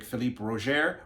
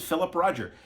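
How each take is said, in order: First: "Philippe Roger" as fee-LEEP ro-ZHAIR; French pronunciation. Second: "Philip Roger" as plain English FILL-ip RAH-jer; English pronunciation. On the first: Vlogger reading a critic's name, French pronunciation of "Philippe Roger". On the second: Vlogger doubting a critic's name, English pronunciation of "Philip Roger". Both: Shown as a demonstration. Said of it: "or is it Philip Roger?".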